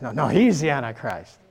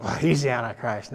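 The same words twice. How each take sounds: First: A lightly voiced contradicting guesser, insisting a bit; mock rival guesser. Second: Mock guesser. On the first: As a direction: brush off the first guess. A second mimicked guess contradicting the first. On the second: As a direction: toss it off like gossip. Mimicking people guessing the Antichrist.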